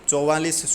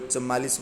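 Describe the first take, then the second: First: The first vowel is 'au'. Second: The first vowel is 'a'. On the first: The speaker calls it right. "चौवालीस शुद्ध है" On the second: The speaker calls it wrong. "कोई कुछ बोल देता है"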